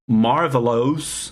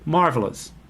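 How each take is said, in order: First: The last vowel is a full, clear vowel. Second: The last vowel is a relaxed schwa sound. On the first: The speaker calls it wrong. "You don't say marvelous" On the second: The speaker calls it right. "a very lazy, relaxed sound"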